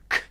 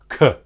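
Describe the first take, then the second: First: The consonant is said alone with no vowel after. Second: The consonant ends with a short added uh vowel. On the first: The speaker calls it right. "without that unnecessary uh hanging off the end" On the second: The speaker calls it wrong. "they might say the phoneme of K like this"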